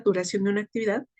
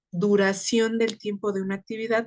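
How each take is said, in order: First: Words rattled off fast to fix the phrase; rushed correction. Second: Said in the usual way. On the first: Real, not acted. Teacher quickly fixing her own wording, rushed. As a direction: hurry through the corrected phrase. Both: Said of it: "self-correction repeats phrase".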